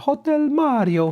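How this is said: It is said in a Mario impression.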